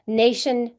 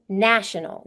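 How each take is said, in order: First: "Nation" with the A as in "day"; long A. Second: "national" with the A as in "cat"; short A. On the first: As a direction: say "Nation" as NAY-shun. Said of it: "Nation has a long A". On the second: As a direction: say "national" as NASH-uh-nul. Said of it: "National has a, a short A sound". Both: Shown as a demonstration.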